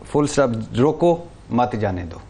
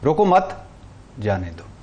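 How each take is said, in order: First: Said in the usual way. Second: Mock order, روکو مت rising, جانے دو sinking to a murmur; mock command. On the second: Shown as a demonstration.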